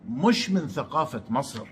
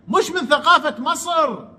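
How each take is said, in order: First: Said in the usual way. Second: Higher, sneering repeat of مش من ثقافة مصر; mocking echo. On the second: Vlogger mocking Amr's claim about Egyptian culture, sneering echo. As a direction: throw his words back with scorn.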